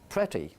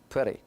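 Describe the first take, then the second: First: The middle consonant is a clear t. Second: The middle consonant is a quick flap. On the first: The speaker calls it right. "which is British, is the right pronunciation" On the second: The speaker calls it wrong. "pretty with a ra"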